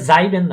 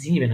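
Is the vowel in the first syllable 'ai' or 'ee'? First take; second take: ai; ee. First: The first vowel sounds like 'ai'. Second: The first vowel sounds like 'ee'. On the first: The speaker calls it wrong. "এটা যাইবেন না হয়ে" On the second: The speaker calls it right. "জিবেন হয়েছে"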